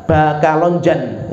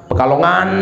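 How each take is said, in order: First: Slow "Bakalonjan" with B for P and J for G. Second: Said in the usual way. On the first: Shown as a demonstration. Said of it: "Mereka kalau ngomong Pekalongan itu pakainya ba". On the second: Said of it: "Mereka kalau ngomong Pekalongan".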